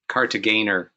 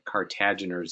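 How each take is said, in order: First: The G is pronounced hard, as in 'go'. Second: The G is pronounced soft, as in 'gem'. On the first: The speaker calls it right. "with a hard G" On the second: The speaker calls it wrong. "not the Cartaginers. It's incorrectly done frequently"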